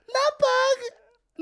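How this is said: It is said in a high-pitched voice.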